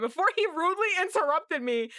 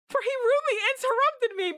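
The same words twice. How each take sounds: First: Said in the usual way. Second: Much higher, louder, fast mock outrage; high indignant repeat. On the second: Shown as a demonstration. Re-reading the line after the interruption, higher and louder. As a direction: squeal it in mock offence.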